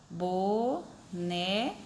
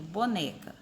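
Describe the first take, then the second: First: "Boneca" broken into three slow syllables. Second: Said in the usual way. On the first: Shown as a demonstration. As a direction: sound out "Boneca" as bo... ne... ca. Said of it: "Quem é a mais forte aí?".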